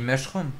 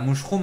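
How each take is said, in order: First: The first vowel is an English 'uh' sound. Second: The first vowel is a French 'ou' sound. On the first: The speaker calls it right. "On dit mushroom" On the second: The speaker calls it wrong. "on dit pas mouchroom"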